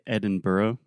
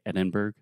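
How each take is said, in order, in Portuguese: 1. A terminação é dita por completo, como em borough. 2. A terminação é reduzida a uma forma mais curta. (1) "technically I would say Edinburgh, because it does have the borough" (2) "Americans simply say Edinburgh, just to be a little shorter"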